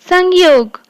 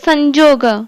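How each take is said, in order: First: The middle consonant is a 'y' sound. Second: The middle consonant is a 'j' sound. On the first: This is the Hindi pronunciation. "संयोग को हिंदी रे कौन उच्चारित करती?" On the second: This is the Odia pronunciation. "किंतु ओडिया रे संजोग"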